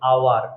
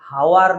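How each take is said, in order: First: The word starts with a vowel sound, no h. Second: The word starts with an audible h sound. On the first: The speaker calls it right. "এইচ এর উচ্চারণ আসছে না, ও এর উচ্চারণ আসছে" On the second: The speaker calls it wrong. "আওয়ারের যে উচ্চারণ সেটা কিন্তু হাওয়ার নয়"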